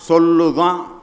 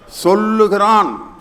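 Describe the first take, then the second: First: It is said in Tirunelveli dialect. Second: It is said in standard written Tamil.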